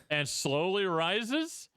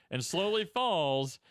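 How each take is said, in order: First: Drawn-out "slowly rises", pitch climbing to the end; rising tune on RISES. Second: Slow "slowly falls", pitch sinking at the end; falling tune on FALLS. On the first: Describing a gentle ride to co-host, slow climbing tune on "rises". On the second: Describing a gentle ride to co-host, slow sinking tune on "falls". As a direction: let "falls" glide down like the ride. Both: Shown as a demonstration.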